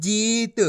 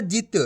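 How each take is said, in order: First: जीत with a long held ee. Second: जित with a quick short i; brief i in जित, not drawn out. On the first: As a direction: draw out the vowel in जीत. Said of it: "इसी तरीके से पढ़ाना है". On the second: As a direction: cut the vowel of जित short. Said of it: "ऐसे नहीं पढ़ाना है". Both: Shown as a demonstration.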